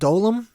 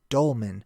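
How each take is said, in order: First: It is said as dolem, without the n. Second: It is said as dolmen, ending in n. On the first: The speaker calls it wrong. "I was pronouncing it incorrectly" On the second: The speaker calls it right. "but it's dolmen"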